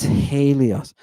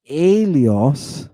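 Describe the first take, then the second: First: Helios as "HAY-lee-os", h sounded; slow Helios with a breathed h in front; with rough breathing. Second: Elios as "AY-lee-os", h dropped; drawn-out Elios opening straight on the vowel; no rough breathing. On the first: Teacher correcting to the Greek form, Helios with its h. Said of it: "It's Helios". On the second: Teacher showing the wrong form, Elios without its h. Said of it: "So it's not Elios". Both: Shown as a demonstration.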